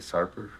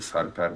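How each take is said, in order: First: The name is said the American way. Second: The name is said the native Turkish way.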